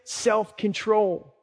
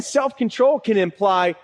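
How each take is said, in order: First: Reluctant drawn-out word. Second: Said in the usual way. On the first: Shown as a demonstration. The one we like to skip.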